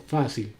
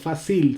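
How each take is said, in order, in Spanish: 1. El acento está en la primera sílaba. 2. El acento está en la segunda sílaba. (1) "tiene el acento en fácil, en fa" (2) "no fácil"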